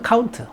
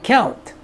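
First: It is said in a Korean accent. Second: It is said in an American accent. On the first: "한국에서는" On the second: "미국에서는"

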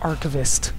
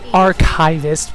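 First: The word is said in a British accent. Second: The word is said in an American accent. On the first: "but it could be like archivist" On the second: "in an American dialect, it goes by archivist"

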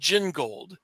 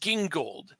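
First: It begins with a soft J sound. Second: It begins with a hard G sound. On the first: The speaker calls it wrong. "they called it Gingold" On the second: The speaker calls it right. "I pronounce it Gingold"

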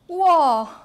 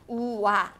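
First: It is said with acted, expressive emotion. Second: It is said flatly, without acted emotion.

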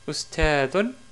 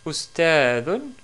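The two takes are said the same way.

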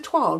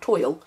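First: It is pronounced the French way. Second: It is pronounced the English way. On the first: The speaker calls it right. "that's because it's French" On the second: The speaker calls it wrong. "not toile"

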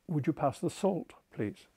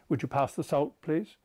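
First: It is said in an English accent. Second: It is said in a New Zealand accent.

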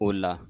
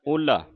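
First: The word is said in its plain form. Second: The word is said in its modified form. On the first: The speaker calls it wrong. "ਜੇ ਹਲੰਤ ਨਾ ਲੱਗੀ ਹੁੰਦੀ ਫਿਰ ਓਲਾ ਬਣ ਜਾਣਾ ਸੀ" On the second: The speaker calls it right. "ਇੱਥੇ ਇਹਨੂੰ ਕਹਿਣਾ ਓਲਾ"

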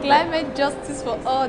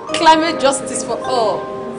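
First: It is said quietly. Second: It is said loudly.

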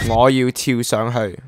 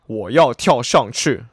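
First: The sentence is pronounced in Cantonese. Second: The sentence is pronounced in Mandarin.

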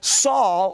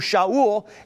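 First: The name begins with an 's' sound. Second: The name begins with an 'sh' sound. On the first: This is the usual English form of the name. "a Hebrew name that we call Saul" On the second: This is how the name is said in Hebrew. "it's pronounced in Hebrew"

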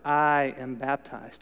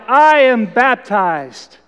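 First: It is said noticeably louder. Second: It is shouted at full volume.

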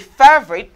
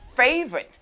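First: The first vowel is not an 'ay' sound. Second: The first vowel is an 'ay' sound. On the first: The speaker calls it wrong. "Don't say favorite" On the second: The speaker calls it right. "it's a fey. Like A has an A sound. I say favorite"

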